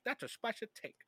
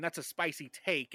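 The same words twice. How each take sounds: First: Higher, hammy Latino-accented catchphrase. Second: Said in the usual way. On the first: Shown as a demonstration. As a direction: punch it with a mock Latino lilt. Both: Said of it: "a Latino cut from you, like, saying".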